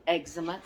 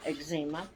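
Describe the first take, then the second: First: "eczema" stressed up front, EG-zuh-muh; proper modern pronunciation. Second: "eczema" stressed in the middle, eg-ZEE-muh; her own pronunciation. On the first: Vlogger saying it properly on camera, modern EG-zuh-muh for "eczema". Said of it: "I do try to say it properly". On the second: Vlogger switching to her childhood word, eg-ZEE-muh for "eczema". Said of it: "But to me". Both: Shown as a demonstration.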